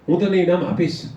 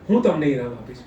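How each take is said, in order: First: The stress falls on the last word. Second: The stress falls on the first word. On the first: It answers whether the prize will be given. "તમે મને ઇનામ આપશો" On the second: It answers who will give the prize. "મને કોણ ઇનામ આપશે"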